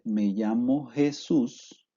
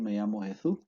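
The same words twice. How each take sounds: First: The s sounds are plain hissing s sounds. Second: The s sounds are made with the tongue between teeth. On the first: "si una persona dice" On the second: "la interdentalización lo obligará a decir"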